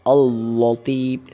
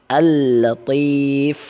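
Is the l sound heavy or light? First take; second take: heavy; light. First: The l sound is pronounced heavy and thick. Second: The l sound is pronounced light and thin. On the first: The speaker calls it wrong. "juga suatu kesalahan" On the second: The speaker calls it right. "la-nya tetap dibaca tipis"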